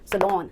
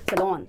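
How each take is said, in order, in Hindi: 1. दूसरे अक्षर में छोटी 'lon' स्वर ध्वनि है। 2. दूसरे अक्षर में छोटी 'lon' स्वर ध्वनि है।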